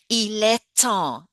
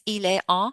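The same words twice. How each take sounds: First: The T links smoothly into the next vowel. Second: The words are separated with a choppy break. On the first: The speaker calls it right. "we pronounce it so it becomes smooth. It's that liaison" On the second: The speaker calls it wrong. "super choppy French"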